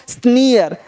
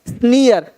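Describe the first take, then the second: No difference in how they are said.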